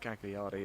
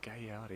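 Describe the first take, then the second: First: The g and l are both clearly sounded. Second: The gl is said like a y sound. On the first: The speaker calls it wrong. "That's my terrible pronunciation. It's my Southern England pronunciation" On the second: The speaker calls it right. "is how you pronounce it properly"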